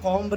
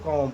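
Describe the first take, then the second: First: The final b sound is pronounced. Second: The final b sound is silent. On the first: The speaker calls it wrong. "कॉम्ब नहीं पढ़ेंगे" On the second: The speaker calls it right. "जिसको हम लोग कॉम पढ़ेंगे"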